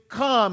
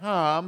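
First: It is said as a heartfelt, deep cry. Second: It is said casually, without strong feeling.

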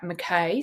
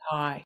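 First: The name is pronounced the American way. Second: The name is pronounced the traditional Scottish way. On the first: "you would pronounce it in the US" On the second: "because it's the traditional Scottish way"

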